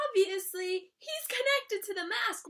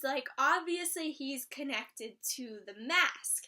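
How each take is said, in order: First: Connected pushed up and leaned on; stress on connected. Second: Said in the usual way. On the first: Real, not acted. Recapping the show for viewers, connected stressed. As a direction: insist on the word connected. Repeats theory with emphasis.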